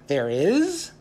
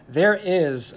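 First: "is" sliding sharply up in disbelief; rising, incredulous "is"; surprised question. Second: "There" stressed, the phrase falling with finality; settled, certain "There is"; firm declaration. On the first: Ziz questions God's news. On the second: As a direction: declare it, coming down on "is". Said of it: "God declared". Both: A narrator's reading.

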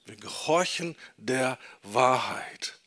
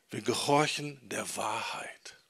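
First: Said in the usual way. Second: Whispered. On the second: Shown as a demonstration. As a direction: whisper it, almost no voice. (geflüstert, fast ohne Stimme) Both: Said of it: "repeats key sentence twice".

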